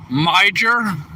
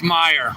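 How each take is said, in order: First: "Mijer" said as MY-jer, with a J sound; reading the sign as "Mijer" with a hard J; guessed pronunciation. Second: "Meyer" said as MY-er, the J silent; "Meyer", no J sound, two syllables; corrected pronunciation. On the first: Trucker reading the store sign aloud, says "Mijer" with a J. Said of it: "I don't even know how you produ-, pronounce it". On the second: Chat corrects him, he tries "Meyer" with a silent J. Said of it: "Say it like this". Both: Shown as a demonstration.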